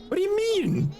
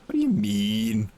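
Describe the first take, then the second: First: Much higher, squeaky put-on voice; high mock squeak. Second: Low, slow mock puzzlement. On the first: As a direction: squeak the question like a little girl. Repeats question in silly voice. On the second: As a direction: lower and slow, dragged-out question. Repeats question in another voice.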